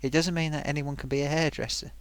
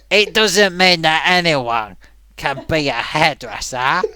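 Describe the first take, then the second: First: It is said in the speaker's normal voice. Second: It is said in an imitated, put-on voice.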